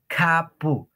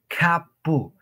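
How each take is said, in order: The two takes are said the same way.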